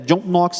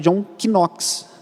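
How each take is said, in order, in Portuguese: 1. O K no início de Knox é silencioso. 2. O K no início de Knox é pronunciado. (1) "ignorando esse primeiro K" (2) "considerando a pronúncia do K"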